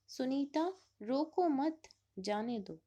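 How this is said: There is a pause after मत.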